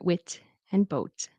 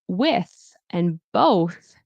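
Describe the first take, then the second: First: The words end with a t sound. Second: The words end with a th sound. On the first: The speaker calls it wrong. "or wit and boat" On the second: The speaker calls it right. "Instead of saying with and both"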